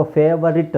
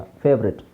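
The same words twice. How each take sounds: First: ಫೇವರಿಟ್ in three syllables, fe-va-rit; wrong pronunciation. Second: ಫೇವ್ರೆಟ್ in two syllables, fev-rit; correct pronunciation. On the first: Teacher showing what we don't say, wrong pronunciation. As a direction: sound the middle "va" in ಫೇವರಿಟ್. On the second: Teacher correcting the long forms, correct pronunciation. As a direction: drop the middle vowel in ಫೇವ್ರೆಟ್. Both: Shown as a demonstration. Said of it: "ಅಂತ ಹೇಳಲ್ಲ".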